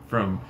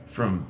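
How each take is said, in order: The two takes are said the same way.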